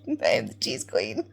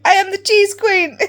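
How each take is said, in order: First: Lower, flat-voiced restatement of the title; deadpan repeat. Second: Loud and high, crowning yourself cheese queen; proud proclamation. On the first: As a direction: say it dead serious, unbothered. Repeats the claim to the friend. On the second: Retold or imitated. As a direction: shout it like a royal decree. Proud declaration retold to a friend.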